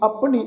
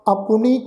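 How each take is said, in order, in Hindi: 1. इसे p के बाद 'u' ध्वनि के बिना बोला जाता है। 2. इसे p के बाद छोटी 'u' के साथ बोला जाता है। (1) "इस ढंग नाल उच्चारण नहीं करना" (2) "अपनी औंकड़ का भी उच्चारण करना वा"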